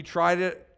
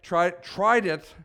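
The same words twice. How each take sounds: First: Said in the usual way. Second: Slow, pointed weight on "tried it"; air-quoted "tried it". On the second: Shown as a demonstration. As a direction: set "tried it" apart as if in sceptical quotes. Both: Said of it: "I used quotations on "try it".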